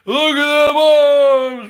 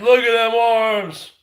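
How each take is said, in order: First: Louder, higher and slowed right down, showing off his arms; slow flexing shout. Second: Said in the usual way. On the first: Real, not acted. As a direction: drag it out like a boast. Taunting rival, flexing arms.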